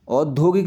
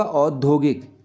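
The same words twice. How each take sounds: First: औद्योगिक with a plain "o" at the start; wrong spelling demo. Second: औद्योगिक with an open "au" at the start; correct vowel demo. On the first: Teacher showing the error, औद्योगिक starting on o. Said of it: "औद्योगिक नहीं होगा". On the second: Teacher correcting children, औद्योगिक starting on au. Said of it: "दो मात्रा आएंगी इसमें". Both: Shown as a demonstration.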